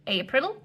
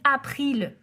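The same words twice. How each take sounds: First: The word is said with English-like sounds. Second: The word is said with French-like sounds. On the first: The speaker calls it right. "au lieu de April" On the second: The speaker calls it wrong. "vous dites April au lieu de"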